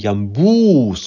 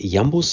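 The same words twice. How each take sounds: First: The stress is on the second syllable. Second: The stress is on the first syllable. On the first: "sondern Jambus ... die zweite Silbe betont wird" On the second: "nicht Jambus sagt"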